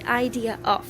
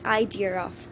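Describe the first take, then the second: First: The words are joined with no r sound. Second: A slight r sound links the two words. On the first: The speaker calls it wrong. "So it's not going to be idea of" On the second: The speaker calls it right. "There is a very slight r sound in between"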